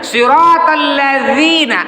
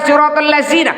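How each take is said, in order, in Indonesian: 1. Konsonannya dibuat dengan lidah di antara gigi. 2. Konsonannya adalah bunyi z biasa. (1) "yang betul"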